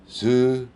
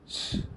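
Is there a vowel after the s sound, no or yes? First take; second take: yes; no. First: The s is followed by a short vowel sound. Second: The s is hissed with no vowel after it. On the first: The speaker calls it wrong. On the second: The speaker calls it right.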